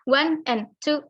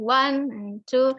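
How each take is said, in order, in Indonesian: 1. Setiap kata diucapkan terpisah, tanpa disambung. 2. Kata-katanya disambung dengan lancar menjadi satu kesatuan. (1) "Jadi bukan one and two and three and four, nggak kayak gitu" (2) "jadi harus disambung"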